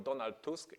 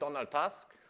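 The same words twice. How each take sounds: First: The name is pronounced the Polish way. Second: The name is pronounced the English way.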